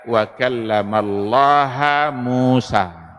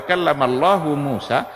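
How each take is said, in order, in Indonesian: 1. Allah diakhiri dengan vokal a, yaitu 'ha'. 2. Allah diakhiri dengan vokal u, yaitu 'hu'. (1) "Dibaca Allah, berarti Allah menjadi maf'ul" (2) "Allahnya yang fa'il"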